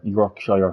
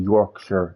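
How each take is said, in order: First: "Yorkshire" with the last syllable opened out to shy-er; Yorkshire ending in -shire. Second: "Yorkshire" with the last syllable reduced to shur; Yorkshire ending in -shur. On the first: Streamer unsure of the name, "Yorkshire" said as York-shy-er. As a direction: say "Yorkshire" with a full -shire, rhyming with fire. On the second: Streamer trying the accent's name, "Yorkshire" said as York-shur. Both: Shown as a demonstration. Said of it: "however the hell it's pronounced".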